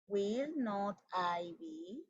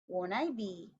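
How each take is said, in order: First: "Will not" is said as two full words. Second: "Will not" is shortened into one syllable. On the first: "en vez de decir I will not, digo will not I" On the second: "El will not se convierte en won't"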